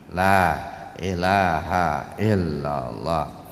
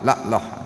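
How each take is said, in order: First: Every sound of the phrase is fully pronounced. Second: The phrase is clipped, with sounds dropped out. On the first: The speaker calls it right. "dengan kalimat yang sempurna" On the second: The speaker calls it wrong. "huruf yang hilang"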